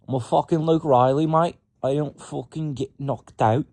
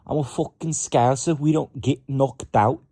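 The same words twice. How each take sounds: First: Mock British accent sliding into Australian, higher and louder; brash fighter boast in a bad British accent; botched British accent. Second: Mock Scouser accent, higher and louder; cocky Liverpool fighter boast, hammed-up accent; Scouse accent attempt. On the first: Voicing fighter Luke Riley, bad British accent boast. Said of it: "I keep saying Australian shit, but trying to do it in a British accent". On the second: Retrying Luke Riley as a Scouser, loud mock accent. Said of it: "trying to do it in a British accent".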